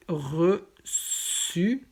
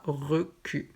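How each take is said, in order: First: "reçu" said "ressu" with a soft S. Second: "recu" said slowly with a hard K, "requ"; wrong hard C. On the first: Teacher setting "reçu" against a hard-C reading. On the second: Teacher showing students the wrong hard-C "recu". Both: Shown as a demonstration. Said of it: "et pas recu".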